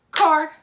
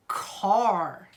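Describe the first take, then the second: First: Car as one loud, short, high beat; clapped-out syllable. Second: Said in the usual way. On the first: Shown as a demonstration. Teacher trying out a word with claps, Car in one loud beat. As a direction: punch out Car in a single crisp burst. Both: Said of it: "Let's try it out".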